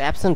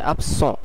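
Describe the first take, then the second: First: It is pronounced with English sounds. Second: It is pronounced with French sounds. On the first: "ইংলিশে অ্যাবসেন্ট হবে" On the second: "কিন্তু ফরাসিতে অ্যাবসেন্ট"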